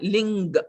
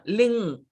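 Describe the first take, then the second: First: The word ends with an audible hard g. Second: The word ends in a plain ng sound. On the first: The speaker calls it wrong. "it is not ling. Mm, there is no G there" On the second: The speaker calls it right. "So it's only the nga"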